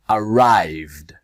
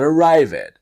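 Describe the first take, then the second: First: The ending adds no extra syllable. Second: The ending adds an extra syllable. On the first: The speaker calls it right. "the E just disappears" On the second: The speaker calls it wrong. "not arrived"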